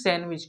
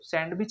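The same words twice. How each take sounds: First: The d sound is left out. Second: The d sound is pronounced. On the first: The speaker calls it right. "यहाँ पे डी silent है" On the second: The speaker calls it wrong. "ये गलत माना जाएगा"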